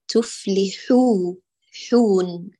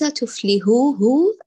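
First: The word ends with a clear n sound. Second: The word ends with a soft h sound. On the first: The speaker calls it right. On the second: The speaker calls it wrong.

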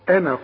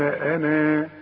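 First: The final vowel is short, joined to the next word. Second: The final vowel is lengthened with a natural elongation. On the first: The reader continues into the next word. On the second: The reader stops on this word.

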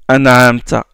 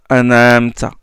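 The two takes are said the same way.

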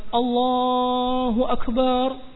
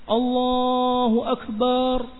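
The two takes are said the same way.

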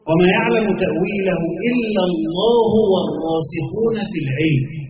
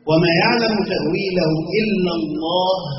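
First: The reading runs on past Allah without stopping. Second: The reading stops after the word Allah. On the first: Those firm in knowledge also know its interpretation. "والقول الآخر الوقف عند العلم" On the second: Only God knows its interpretation. "ويبقى هنا موضع وقف"

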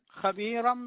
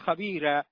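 First: The r is heavy, with the word run on. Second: The r is light, with a stop after it. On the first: The reader continues without stopping. "من يفخمها وصلا" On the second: The reader stops on this word. "إذا وقف يقول"

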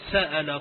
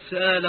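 First: A glottal stop is heard in the middle. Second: The glottal stop is softened into a long vowel.

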